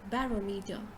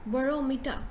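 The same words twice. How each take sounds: First: The first syllable sounds like 'ba'. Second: The first syllable sounds like 'bo'. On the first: The speaker calls it wrong. "a lot of us will pronounce it as barometer" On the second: The speaker calls it right. "you say bo, not ba"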